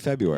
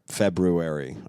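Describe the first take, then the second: First: The first R sound is dropped entirely. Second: The first R sound is pronounced clearly. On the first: "I say February. It's much easier to say" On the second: "I don't say Feb- February"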